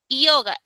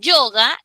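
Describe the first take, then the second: First: The word starts with a vowel i sound. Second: The word starts with a consonant y sound. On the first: The speaker calls it wrong. "tú no dices" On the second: The speaker calls it right. "ahí sí suena como consonante"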